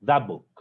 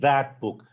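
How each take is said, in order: First: The t at the end of that is dropped. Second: The t at the end of that is pronounced. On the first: The speaker calls it right. "t and b in the middle, they would be lost somewhere" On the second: The speaker calls it wrong. "it won't be"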